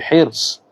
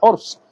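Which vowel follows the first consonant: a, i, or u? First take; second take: i; u. First: The first vowel is an i sound. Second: The first vowel is a u sound. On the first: The speaker calls it right. "tapi hirs" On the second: The speaker calls it wrong. "bukan hurs"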